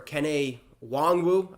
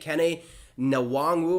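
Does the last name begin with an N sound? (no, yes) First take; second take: no; yes. First: The last name begins without an N sound. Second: The last name begins with an N sound. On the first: The speaker calls it right. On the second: The speaker calls it wrong.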